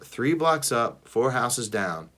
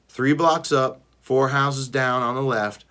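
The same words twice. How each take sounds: First: Slow, reluctant repeating; grudging. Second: Firm, louder instructions; commanding. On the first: Sister grudgingly repeats her brother's directions, slow. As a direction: drag it out, humoring him. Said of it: "Fine, whatever". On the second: Brother giving his sister firm orders, louder. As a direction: spell it out like an order. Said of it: "I command". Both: A narrator's reading.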